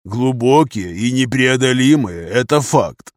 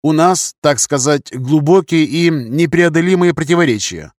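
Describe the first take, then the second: First: Slow echo in a colonel's voice; colonel agreeing. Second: Higher-pitched courteous officer's voice; polite English captain. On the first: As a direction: repeat the phrase slowly, weighing it. Colonel echoes the captain's phrase. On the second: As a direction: explain delicately in a higher, formal voice. Englishman's figure voice, answering the colonel. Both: A narrator's reading.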